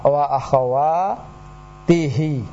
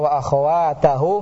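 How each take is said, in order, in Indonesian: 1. Vokal setelah akhwat adalah bunyi i. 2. Vokal setelah akhwat adalah bunyi a. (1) "Yang benar adalah" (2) "maka tidak tepat"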